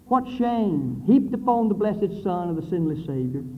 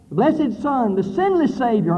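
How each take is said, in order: First: Said in the usual way. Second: Blessed and sinless punched higher and louder; emphasized. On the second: Shown as a demonstration. Preacher repeating the phrase to stress it to the congregation. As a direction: hit blessed and hit sinless hard. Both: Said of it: "I emphasize it".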